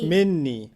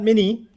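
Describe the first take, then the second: First: The n sound in the middle is held long. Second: The n sound in the middle is short. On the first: The speaker calls it right. "This one's gonna have a double noon" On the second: The speaker calls it wrong. "not mini"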